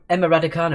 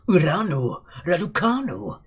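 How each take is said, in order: First: The name is said in a plain, normal voice. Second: The name is said in an exaggerated put-on voice.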